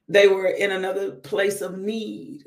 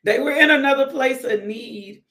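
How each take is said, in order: First: Said in the usual way. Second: Louder and higher, preaching; emphatic. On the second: Shown as a demonstration. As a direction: repeat it with preacher's fire. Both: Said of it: "Come on, it's a word".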